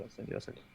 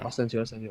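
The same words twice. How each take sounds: First: Whispered repeat. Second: Said in the usual way. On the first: Real, not acted.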